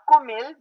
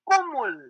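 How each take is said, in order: First: The final syllable has an i vowel. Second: The final syllable has an u vowel. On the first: The speaker calls it wrong. "Not Kumil, that's a printing mistake" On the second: The speaker calls it right.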